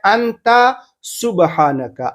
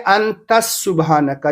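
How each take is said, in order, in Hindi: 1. anta स्वर पर खत्म होता है, इसमें s नहीं है। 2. एक s की आवाज़ anta को subhanaka से जोड़ती है। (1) "जबकि है अंता सुबहानका। अंता अलग है, सुबहानका अलग है।" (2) "लोग क्या पढ़ते हैं? अंतस सुबहानका"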